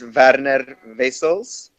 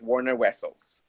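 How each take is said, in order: First: The name is said with its original pronunciation. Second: The name is said with an American pronunciation. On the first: This is how the name is really pronounced. "it's actually pronounced as" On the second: This is the version used for people in the States. "so we just go with"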